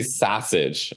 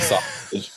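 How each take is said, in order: First: "sausage" said the Chicago uncle's way; Chicago-accented "sausage". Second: Said in the usual way. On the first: Shown as a demonstration. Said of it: "he would say sausage". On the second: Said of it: "instead of sausage".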